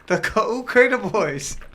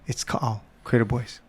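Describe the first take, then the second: First: The name is said as Kaukerna Boys. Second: The name is said as Ka'au Crater Boys. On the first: The speaker calls it wrong. "how I was mispronouncing it" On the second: The speaker calls it right. "it's Ka'al, Crater Boys, Ka'al"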